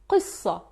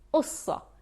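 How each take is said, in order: First: The word starts with a deep throat q sound. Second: The word starts with a glottal stop instead. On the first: This is the Standard Arabic form. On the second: This is the Levantine dialect form.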